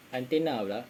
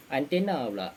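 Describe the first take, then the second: No difference in how they are said.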